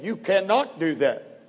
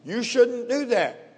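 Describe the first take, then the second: First: "cannot" stressed firmly; very emphatic. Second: Higher, drawn-out gentle caution; mild advice. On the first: Preacher giving Jesus' words against mere advice, very emphatic. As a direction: state "cannot" as a firm absolute. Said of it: "very emphatically". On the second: Preacher contrasting advice with Jesus' command, mild caution. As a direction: advise against it in a high, slow lilt. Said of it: "Quite a difference between the two". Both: Shown as a demonstration.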